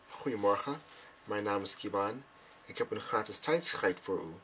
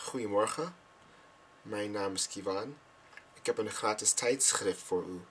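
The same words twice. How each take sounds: First: Tijdschrift slipped into tijd-schijt, ending rhymes with kite; mispronounced Dutch. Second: Tijdschrift said properly, ending in short i and ft; correct Dutch. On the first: Learner replays the Dutch slip, tijdschrift mispronounced as tijd-schijt. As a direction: mispronounce tijdschrift with a long eye vowel, no f. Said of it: "But this is what I said". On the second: Learner shows the correct Dutch door greeting, tijdschrift said properly. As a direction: say tijdschrift correctly, vowel as in shift. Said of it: "this is what it's supposed to sound like".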